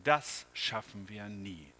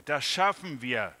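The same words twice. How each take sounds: First: Slow, lower, weary sigh of defeat; puffing in despair. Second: Louder, firm reassurance; confident reply. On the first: The man, exhausted from cleaning, despairs. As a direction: puff it out, worn down. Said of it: "schnaufte er". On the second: The helper reassures the tired man. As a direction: answer with steady certainty. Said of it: "sagte der andere". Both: A narrator's reading.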